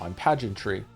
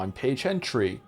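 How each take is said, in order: First: It is said as one single word. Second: It is said as two words, name-like. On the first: The speaker calls it right. "It's pageantry" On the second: The speaker calls it wrong. "I'm either saying this wrong"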